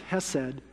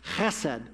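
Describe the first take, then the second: First: It begins with a plain, soft h sound. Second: It begins with a rough, throaty h sound. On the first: The speaker calls it wrong. "So it looks like hesed" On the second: The speaker calls it right. "you got to say it like you got a goober in your throat"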